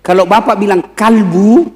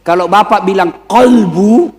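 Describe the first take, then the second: First: Kalbu said with a plain a, the mistake; wrong pronunciation. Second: Kolbu with a full open o; right pronunciation. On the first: Preacher shows the funny wrong version, kalbu with an a. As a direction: say kalbu, the word for dog. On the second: Preacher shows the right Arabic word, careful kolbu. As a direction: say kolbu, meaning heart. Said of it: "salah ucap". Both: Shown as a demonstration.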